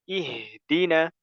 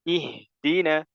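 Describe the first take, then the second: No difference in how they are said.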